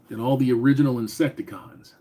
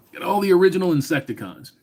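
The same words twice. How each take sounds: First: Said in the usual way. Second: Higher, faster, excited repeat of the comment; impressed repeat. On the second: Real, not acted. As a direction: say it again like you can't believe it.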